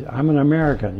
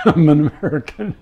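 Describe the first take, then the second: First: Said in the usual way. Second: Mock Swedish accent, laughing; hammed-up Swedish accent, higher and louder. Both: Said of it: "with this severe Swedish accent".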